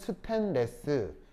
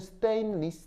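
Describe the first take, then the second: First: It is said with Korean-style syllables and vowels. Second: It is said with native English sounds. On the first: "콩글리시로는" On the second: "영어로는"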